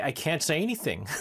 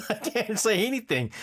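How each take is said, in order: First: Said in the usual way. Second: Laughing through the words, higher. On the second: Shown as a demonstration. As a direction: giggle it out.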